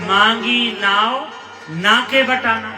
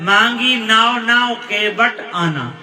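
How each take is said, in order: First: The pause comes right before the word na. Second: The pause comes right after the word na. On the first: The boat was asked for. "ना उधर करो अर्थ बदल" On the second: The boat was not asked for; the boatman is invited. "ना इधर करो तो अर्थ"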